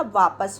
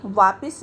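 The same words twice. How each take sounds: First: वापस with no ई, vaapas; correct form. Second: वापिस with an ई on प, vaapis; wrong form. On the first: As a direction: says वापस plainly as the right form. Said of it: "वापस होता है". (सही उच्चारण वापस) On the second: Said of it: "वापिस नहीं होता". (गलत उच्चारण वापिस) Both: Shown as a demonstration.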